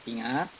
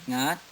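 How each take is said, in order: The two takes are said the same way.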